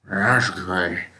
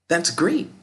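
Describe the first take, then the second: First: It is said in a slow zombie drawl. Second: It is said with enthusiasm.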